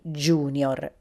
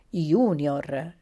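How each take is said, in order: First: It is pronounced with English-style sounds. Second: It is pronounced with Latin-style sounds. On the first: The speaker calls it wrong. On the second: The speaker calls it right.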